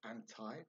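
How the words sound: It is said in an American way.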